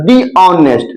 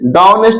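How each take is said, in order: First: 'The' is said with a long 'ee' vowel. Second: 'The' is said with a short 'uh' vowel. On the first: The speaker calls it right. "तो दी honest" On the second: The speaker calls it wrong. "द honest नहीं"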